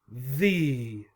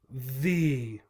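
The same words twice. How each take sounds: First: The word ends in an 'ee' vowel. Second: The same.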